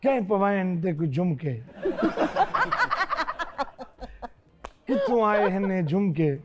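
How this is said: It is said with gentle anger.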